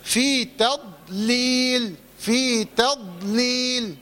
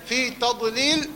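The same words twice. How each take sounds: First: Very slow, drawn-out في تضليل with a light ت and heavy ض; still daad. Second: تضليل with its ض bounced open; mistakenly vowelled daad. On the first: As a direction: hold the ض of تضليل closed, with no vowel after it. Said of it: "الضاد ساكنة". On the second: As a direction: slip a short vowel after the ض in تضليل. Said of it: "وما تحركش الضاد". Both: Shown as a demonstration.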